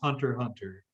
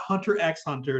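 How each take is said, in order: First: The X between the words is silent. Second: The X between the words is pronounced. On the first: The speaker calls it right. "it's just Hunter Hunter" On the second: The speaker calls it wrong. "it's not Hunter X Hunter"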